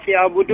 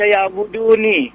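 First: The word ends on n with no final vowel. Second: The word ends with an i vowel after n. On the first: The speaker calls it right. "Dibaca waqaf" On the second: The speaker calls it wrong. "Tidak dibaca"

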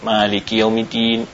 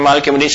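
First: It is recited at a calm, measured pace. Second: It is recited very fast and hurried. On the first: The recitation is proper and valid. The speaker calls it right. "bacanya dengan cara yang tertil biasa" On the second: The recitation is too hurried to be valid. The speaker calls it wrong. "enggak jelas apa yang dibacanya dengan kilatnya begitu"

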